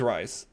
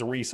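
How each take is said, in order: First: The vowel is an 'eye' sound. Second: The vowel is a long 'ee' sound. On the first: "I pronounce it Rise" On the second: "she corrects me as Reese"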